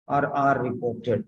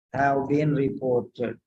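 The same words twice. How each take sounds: First: "or are reported" said slowly as the second option; unhurried teacher's alternative. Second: "Have been reported" said slowly, each word laid out; slow teaching dictation; slow model phrase. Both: Shown as a demonstration. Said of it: "That's how you have to write".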